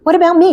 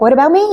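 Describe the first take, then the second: First: Insistent ask pitched much higher; George pleading harder. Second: Put-on young knight asking to be picked, a touch higher; George pleading. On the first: Retold or imitated. George repeating his plea to the queen, higher and more insistent. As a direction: push the plea up, more urgent. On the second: George begging the Fairy Queen, first ask, mildly higher. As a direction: plead to be chosen too. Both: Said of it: "And he's like".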